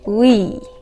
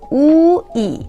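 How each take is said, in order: First: The two vowels are said fast, blended together. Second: The two vowels are said slowly and separately. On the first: "سرعتم رو ببرم بالا این شکلی" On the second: "هم او رو تلفظ کنم هم ای رو تلفظ بکنم"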